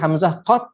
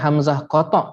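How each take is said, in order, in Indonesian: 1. Bunyi t berakhir tanpa vokal. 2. Sebuah vokal mengikuti bunyi t. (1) "dia ta tu mesti dimatikan" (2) "bukan hamzah qata'"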